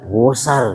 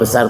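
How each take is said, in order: First: The vowel is drawn out long. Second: The word is said at normal length. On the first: It is extremely big. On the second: It is simply big.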